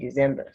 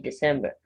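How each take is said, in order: First: The middle consonant is a z sound. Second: The middle consonant is an s sound. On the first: The speaker calls it wrong. "The C in this word gives the S sound, not Z. So don't say December" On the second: The speaker calls it right. "say December"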